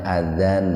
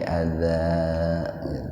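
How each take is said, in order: First: The word ends with a short vowel and n. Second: The word ends with a lengthened vowel, no n. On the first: "asalnya adzan" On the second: "dirubah jadi panjang"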